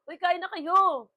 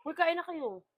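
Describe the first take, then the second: First: Loud, slow call to everyone. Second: Said in the usual way. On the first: Real, not acted. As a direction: call out to the family to eat. Calling out to others. (malakas na pagtawag)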